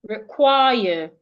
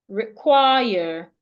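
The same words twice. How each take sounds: No difference in how they are said.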